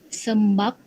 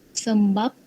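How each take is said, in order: The two takes are said the same way.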